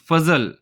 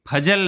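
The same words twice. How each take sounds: First: It starts with an f and has z. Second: It starts with an aspirated p and has j. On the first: The speaker calls it right. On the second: The speaker calls it wrong.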